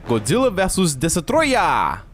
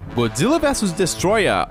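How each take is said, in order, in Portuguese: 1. O título é pronunciado em estilo japonês. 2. O título é pronunciado em estilo ocidental.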